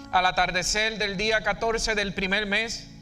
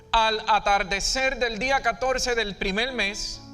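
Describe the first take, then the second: Both takes have the same delivery.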